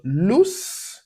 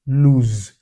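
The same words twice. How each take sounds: First: "loose" with a clear hissed S. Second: "lose" louder, ending on a buzzing Z. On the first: Teacher setting "loose" against "lose", S sound. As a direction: end "loose" on a hissing S. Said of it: "So loose". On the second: Teacher setting "lose" against "loose", Z sound. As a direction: buzz the Z in "lose". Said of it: "So loose, lose". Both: Shown as a demonstration.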